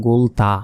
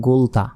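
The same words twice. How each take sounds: Both takes have the same delivery.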